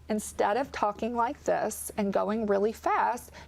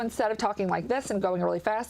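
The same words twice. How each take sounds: First: The phrase is spoken slowly. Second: The phrase is spoken quickly. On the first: The speaker calls it right. "you just slow down the rate of speech a little bit" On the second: The speaker calls it wrong.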